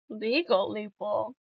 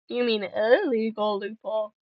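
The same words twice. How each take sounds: First: Said in the usual way. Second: "illegal" picked out with a pitch jump; stress on "illegal". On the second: Real, not acted. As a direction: correct them by punching the word "illegal". Corrects legal to illegal.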